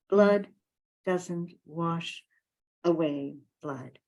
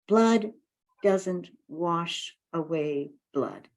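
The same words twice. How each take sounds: The two takes are said the same way.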